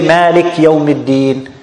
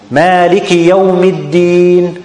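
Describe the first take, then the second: First: The vowel after the k is dropped. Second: The vowel after the k is clearly pronounced. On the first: The speaker calls it wrong. "They delete the kasra" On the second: The speaker calls it right. "So emphasis the kasra. Don't delete it"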